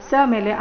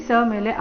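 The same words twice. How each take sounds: The two takes are said the same way.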